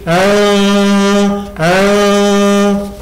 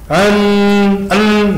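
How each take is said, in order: First: The n is blurred into a nasal sound. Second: The n is pronounced fully and clearly. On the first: The speaker calls it right. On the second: The speaker calls it wrong. "Nunnya enggak lagi an an enggak"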